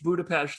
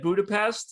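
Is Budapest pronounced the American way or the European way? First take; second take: European; American. First: The city name gets a local European pronunciation. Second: The city name gets a plain American pronunciation. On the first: It sounds pretentious to fellow Americans. "some like uppity traveler?" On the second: The speaker no longer uses this pronunciation. "and now I'm never saying that again"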